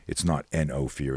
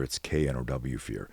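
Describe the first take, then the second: First: Letters N and O said one by one; spelled N O. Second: The letters K N O W said one by one, a bit softer; spelled K N O W. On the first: The spelling N O, each letter said clearly. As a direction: coach spelling out N O for listeners. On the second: The spelling K N O W, each letter said clearly. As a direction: coach spelling out K N O W for listeners. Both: Shown as a demonstration. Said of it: "phonetically spelling it in your mind".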